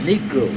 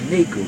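First: The word is said in its full form. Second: The word is said in a reduced form. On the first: This is the proper name for the race. The speaker calls it right. "but it's Negro" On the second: This is how some other people say it. The speaker calls it wrong.

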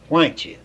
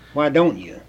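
First: The words are run together and reduced. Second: Each word is said fully and separately. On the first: The speaker calls it wrong. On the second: The speaker calls it right.

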